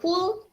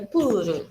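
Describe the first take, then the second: First: It is said with an English final L. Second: It is said as Japanese puuru, without L. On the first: "Dari pool" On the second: "dibawa ke bahasa Jepang jadinya pool karena Jepang nggak punya huruf L"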